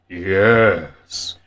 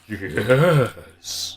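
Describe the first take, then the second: First: It is said in a Beast Wars Megatron voice. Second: It is said in a Beast Wars Megatron voice.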